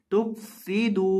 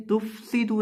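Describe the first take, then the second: First: तुफसिदू with fa from lip on teeth; correct tufsidu. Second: तुफसिदू with a careless fa; wrong reading. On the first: Teacher models correct तुफसिदू. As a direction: say तुफसिदू crisply, falling at the end. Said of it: "नहीं पढ़ना, तुफसिदू". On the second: Teacher imitates the wrong तुफसिदू. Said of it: "तुफसिदू नहीं पढ़ना". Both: Shown as a demonstration.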